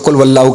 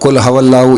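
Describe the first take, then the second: First: The second word begins with a wa sound. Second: The second word begins with a ha sound. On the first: "बहुत से लोग इसको कुल वल्लाहु कह देते हैं" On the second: "या कुल हवल्लाहु"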